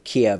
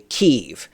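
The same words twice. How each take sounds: First: It uses the older, long-familiar pronunciation. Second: It uses the newer, recently adopted pronunciation. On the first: This is how it was said for decades. "instead of Kiev" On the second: This is how media now demands it be said. "you say Kiev"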